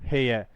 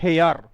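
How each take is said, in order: First: The word ends in a vowel without r. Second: The word ends with a pronounced r sound. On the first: The speaker calls it right. "केवल ऐसे होगा" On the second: The speaker calls it wrong. "इसको बोलते हैं हे यार"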